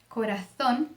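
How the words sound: The z is said with the tongue between teeth. This is how it is said in Spain. "Na Espanha, é, ele vai ser pronunciado com, com o mesmo som do C, com é, a língua entre os dentes"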